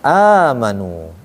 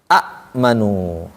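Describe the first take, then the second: First: The first vowel is drawn out long. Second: A glottal catch follows the first vowel. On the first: This is the form actually recited. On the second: This is the original underlying form. "Asalnya mah"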